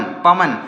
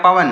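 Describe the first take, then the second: First: पवन said again, lower, ending cleanly on न; repeated demo word. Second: पवन said crisply, no vowel after the final न; spoken demo word. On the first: Teacher repeats पवन for students, ending on न. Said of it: "last में आ की ध्वनि नहीं आती है". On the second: Teacher says पवन to students, no final vowel. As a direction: say पवन with the ending न closed off. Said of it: "जैसे आप पढ़ते हैं पवन". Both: Shown as a demonstration.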